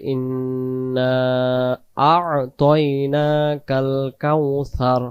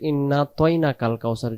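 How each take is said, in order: First: The first word is drawn out; the vowel is kept. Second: The vowel before the second word is dropped. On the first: The speaker calls it right. "প্রথম শব্দ ইন্না আমরা টান দেব এভাবে করে" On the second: The speaker calls it wrong. "যদি এভাবে কেউ পড়ি তাহলে ... সেই অক্ষরটা আহ, বাদ চলে যাবে"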